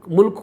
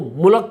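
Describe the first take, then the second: First: The word is said with standard Urdu pronunciation. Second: The word is said with a Punjabi accent.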